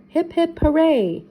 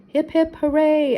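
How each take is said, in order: First: High cheer rising louder on hooray; repeated toast cheer, louder at the end; cheering again. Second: Higher, louder group cheer; hearty toast cheer. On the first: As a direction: punch the hooray. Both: A narrator's reading. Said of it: "everyone cheered".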